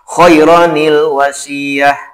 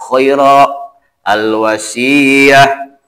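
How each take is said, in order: First: The words run together, linked by an n sound. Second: The words are split with a stop between them. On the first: "yang bagus mah disatukan"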